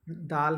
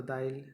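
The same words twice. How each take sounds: First: Said in the usual way. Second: "दाइल" with an i glide before the l; Nagpuri epenthesis. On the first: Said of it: "है तो दाइल". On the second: Shown as a demonstration. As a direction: say daa-il for "दाइल". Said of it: "अपनी ही ती". ("दाइल" में ल से पहले इ जोड़ें)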